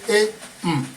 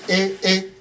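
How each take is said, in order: First: A high tone followed by a low tone. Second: Both syllables are on a high tone. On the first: "that is high low" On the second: "Nke bụ nke a na-akpọ hai hai"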